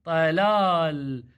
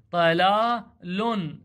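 First: طلال read slowly as plain "telal", no "un" on the end; slow teaching read of طلال, ending bare; without vowel endings. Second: طلال read as "telalun", very slow, the final "un" of the tanween clearly sounded; slow teaching read of طلال with the nunation. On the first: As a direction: stop clean on the final ل, no ending. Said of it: "أو بدون ذن الحركات". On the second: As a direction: drag it out and land on the "un" ending. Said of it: "وهذا النون تنوين". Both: Shown as a demonstration.

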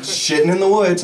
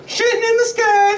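First: Said in the usual way. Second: Bird voice. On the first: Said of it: "answers the bird in his own voice". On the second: Acted. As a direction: answer as the bird in a shrill-high cry. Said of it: "It says".

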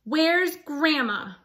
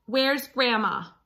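First: Slower, pointed repeat of the question; sterner demand. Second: Firm demand from Red. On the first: Acted. Red refusing the wolf's lie, slower sterner demand. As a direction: press each word home. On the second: A narrator's reading. Red confronting the wolf, firm demand. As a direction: insist on an answer. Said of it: "demanded Red".

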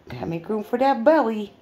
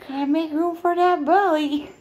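First: Said in the usual way. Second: Higher, louder playful taunt; high teasing singsong. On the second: Pretend. Owner teasing pregnant pet about belly. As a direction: tease her like a child.

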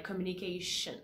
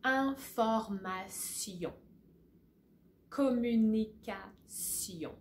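First: Communication with sh, English style. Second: Information and Communication slowly with s, sion ending; slow French model. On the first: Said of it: "you're gonna say". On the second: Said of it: "So let me say that again". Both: Shown as a demonstration.

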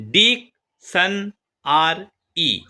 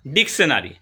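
First: diction আর ই as four slow, spaced beats; split into syllables. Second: Said in the usual way. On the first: Shown as a demonstration. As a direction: pause after each part: ডিক, শন, আর, ই. (Diction আর ই চার ভাগে ভেঙে) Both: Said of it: "polysyllable".

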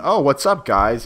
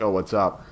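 First: Put-on higher girly "Oh, what's up, guys?" rising at the end; mock high girly. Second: Said in the usual way. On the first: Nikki casually greeting the guys, mock high girly voice. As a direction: play the unbothered naked girl, pitched up. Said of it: "as in". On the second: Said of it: "And she's like".

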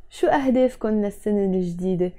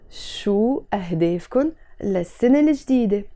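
First: Fast, connected run of the whole question; natural quick pace. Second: Slow, word-by-word pronunciation for learners; slower demo. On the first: Teacher repeating the question to students, quickly. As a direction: run the words together fluently. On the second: Teacher asking students about new-year goals, slower. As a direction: space out each phrase carefully. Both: Shown as a demonstration. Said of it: "Let's say it slower".

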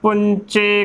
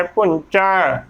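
First: ਪੁੰਚੇ as punche, narrow e ending; closed final e. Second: ਪੁੰਚਾ slowly as punchai, nasal n and open ending; ਪੁੰਚਾ with wide final ai, falling. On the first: Teacher quoting some congregations' misreading, ਪੁੰਚੇ with closed e. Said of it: "ਕਈ ਸੰਗਤਾਂ ਇਸ ਦਾ ਵੀ ਉਚਾਰਨ". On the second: Teacher modelling the double-vowel sign, ਪੁੰਚਾ as punchai. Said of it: "ਚੱਚੇ ਨੂੰ ਦੁਲਾਮਾ ਲੱਗਿਆ ਹੈ". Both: Shown as a demonstration.

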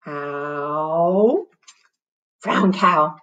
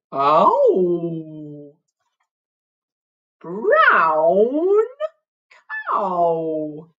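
First: Said in the usual way. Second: Long, mooing cow voice; best cow voice. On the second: Acted. Teacher leads the girls in a silly drawn-out cow voice. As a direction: moo the words out, hugely stretched. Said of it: "In your best cow voice now".

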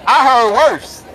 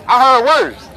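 No difference in how they are said.

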